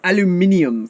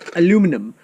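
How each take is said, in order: First: It is said with five syllables, ending -nium. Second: It is said with four syllables, ending -num. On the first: This is the form used in Europe. "or aluminium for those in Europe" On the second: This is the form used in the US. "it's aluminum in the U S"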